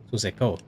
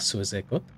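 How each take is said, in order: First: The name ends without any T sound. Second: The name ends with an audible T sound. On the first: The speaker calls it right. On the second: The speaker calls it wrong.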